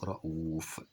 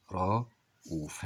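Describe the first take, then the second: First: Said in the usual way. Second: رؤوف slowly split into two long syllables; slow teacher's dictation; drawn-out dictation. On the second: Shown as a demonstration. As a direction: sound it out part by part. Word said whole, then sounded out.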